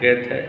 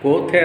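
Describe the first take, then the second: First: The first vowel sounds like 'e'. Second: The first vowel sounds like 'o'. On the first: This is the actual German pronunciation. The speaker calls it right. "యాక్చువల్గా జర్మన్ ప్రొనౌన్సియేషన్లో గేథే అంటారు" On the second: This is how people commonly read the spelling. The speaker calls it wrong. "గోథే అని చదువుతారు"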